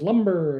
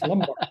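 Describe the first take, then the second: First: The second syllable sounds like 'ber', as in lumber. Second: The second syllable sounds like 'bar', as in lumbar. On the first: It sounds like the word for cut wood. The speaker calls it wrong. "she says lumber, and I'm like, what? No, we're not chopping down trees" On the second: It refers to the lower back. The speaker calls it right. "It's lumbar"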